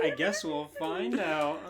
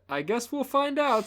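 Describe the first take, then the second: First: Laughing imitation. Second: High mocking voice; mock her in a high voice; mocking [name] voice. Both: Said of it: "[name] is just mocking her".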